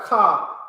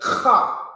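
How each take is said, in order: First: The k sound is soft, without a burst. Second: The k sound is forceful, with a spitty burst. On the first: The speaker calls it wrong. "it's not a ka" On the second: The speaker calls it right. "this first one is is a strong ka"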